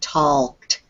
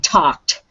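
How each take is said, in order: First: The L sound is pronounced in the word. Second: The L sound is left silent in the word. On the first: The speaker calls it wrong. "Don't worry about trying to make the L sound in there. We don't usually say talked" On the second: The speaker calls it right. "You just say talked"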